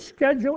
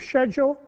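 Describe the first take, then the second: First: The word is said in a non-Australian way. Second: The word is said the Australian way.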